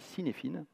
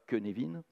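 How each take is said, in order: First: It is pronounced letter by letter as spelled. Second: It is pronounced differently from its spelling. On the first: This is how the word is written. "qui s'écrit Cynefin" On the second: This is how the word is actually said. "qui ne s'écrit pas Cynefin"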